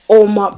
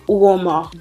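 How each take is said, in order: First: The name begins directly with an O sound. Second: The name begins with an audible U sound. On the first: "in the English way of pronouncing this product, the U is silent" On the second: "like an African way of pronouncing an African name"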